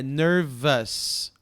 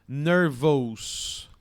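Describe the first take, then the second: First: Nervous with a reduced "vuhs" ending; correct ending on nervous. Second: Nervous said with a full "vous" vowel; wrong ending on nervous. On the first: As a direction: say nervous slow and loud, last vowel a neutral schwa. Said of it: "é nervous". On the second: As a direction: draw nervous out loudly with an O in the ending. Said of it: "Não é nervous". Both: Shown as a demonstration.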